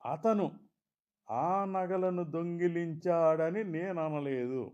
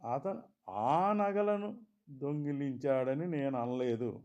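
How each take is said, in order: First: The stress falls on the word అతను. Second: The stress falls on the word ఆ. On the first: Someone else stole them. "మరెవరో దొంగిలించారన్నట్లు" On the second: "ఇంకేవో నగలు దొంగిలించాడన్నట్లు"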